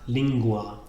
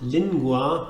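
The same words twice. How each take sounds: First: The n is an ng sound. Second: The n is a plain n sound. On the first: The speaker calls it right. "here the N is also pronounced ng" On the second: The speaker calls it wrong. "language is not lingua"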